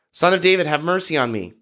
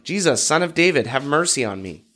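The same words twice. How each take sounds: First: Clearly higher opening, lightly projected; mild shout, more insistent. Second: Mild shout. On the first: Beggar persisting over those in front, mild insistent shout. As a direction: raise the pitch for a narrated shout. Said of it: "he only shouted louder". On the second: Blind beggar calling to passing Jesus, mild shout. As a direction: lightly call out the name, as narration. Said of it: "he began shouting". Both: A narrator's reading.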